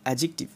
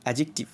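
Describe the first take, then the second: The two takes are said the same way.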